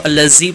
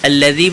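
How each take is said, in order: First: The dh sound is said hard and forceful. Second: The dh sound is said soft and gentle. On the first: The speaker calls it wrong. "बाद लोग इसको अल्लज़ी पढ़ जाते हैं, यानी सख्ती करते हैं" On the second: The speaker calls it right. "सख्ती नहीं की जाएगी बल्कि अल्लज़ी पढ़ेंगे"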